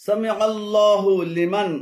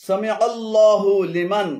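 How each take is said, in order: No difference in how they are said.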